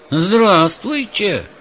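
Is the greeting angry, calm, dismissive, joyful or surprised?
surprised. It is said with surprise. The speaker wonders why they are being greeted. "Удивленно"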